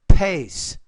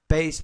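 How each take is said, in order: First: The first consonant has a strong puff of air. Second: The first consonant has almost no puff of air. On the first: The speaker calls it right. "But it's" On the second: The speaker calls it wrong. "You're not pronouncing it with enough air. You're saying"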